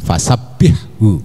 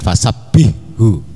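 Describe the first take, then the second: First: The h sound is pronounced clearly and lightly. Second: The h sound is merged into the next sound. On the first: The speaker calls it right. "jelas haknya ya, harus ditampakkan ada tipisnya haknya resik" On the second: The speaker calls it wrong. "Jangan fasabbihu ya, itu salah"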